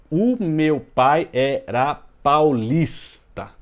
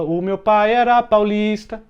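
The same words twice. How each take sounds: First: Very slow, each syllable separated; scanning the verse. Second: Sung higher and louder, lilting; sung melody. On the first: Teacher marking scansion for class, slow separated syllables. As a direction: spell out the scansion beat by beat. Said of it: "a última tônica aqui é o lis". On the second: Teacher showing the verse as music, sung higher and louder. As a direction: sing the line as the song goes. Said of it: "E isso em música dá pra você dizer". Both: Shown as a demonstration.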